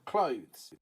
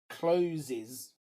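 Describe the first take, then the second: First: It is said as one syllable, without an extra sound. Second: It is said as two syllables, with an extra sound. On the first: The speaker calls it right. "So clothes" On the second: The speaker calls it wrong. "Many students say closes"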